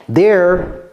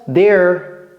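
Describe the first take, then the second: No difference in how they are said.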